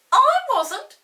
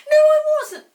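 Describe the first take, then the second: First: Very high, loud denial; indignant denial. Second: Even higher, louder stubborn denial. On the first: Peter denies to Molly, indignant. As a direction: deny it like a stubborn boy. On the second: Peter denies again to Molly, louder. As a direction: shout the denial back. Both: Acted. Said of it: "said Peter".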